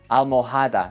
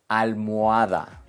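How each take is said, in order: First: An h sound is heard in the middle. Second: No h sound is heard in the middle. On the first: The speaker calls it wrong. "learners sometimes want to sneak in an H sound" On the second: The speaker calls it right. "La letra H es muda"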